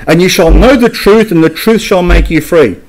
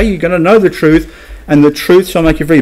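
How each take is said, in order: First: Lifted, eager recital of a favourite verse; mock popular quote. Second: Said in the usual way. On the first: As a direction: quote "know" up high, like a slogan people love. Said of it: "a lot of people say". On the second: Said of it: "But look at something".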